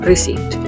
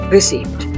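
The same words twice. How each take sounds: No difference in how they are said.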